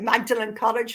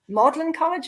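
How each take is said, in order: First: Magdalen is pronounced the way it is spelled. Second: Magdalen is pronounced differently from its spelling. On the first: The speaker calls it wrong. "I was always calling it" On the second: The speaker calls it right. "and it's"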